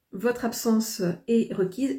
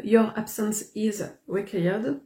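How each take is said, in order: First: Said in the usual way. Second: Slow, careful English with a strong French accent; self-mocked English accent. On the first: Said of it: "Non, ça se dit pas comme ça". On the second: Real, not acted. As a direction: read the English line slowly in a heavy French accent. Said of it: "mon accent anglais est pitoyable".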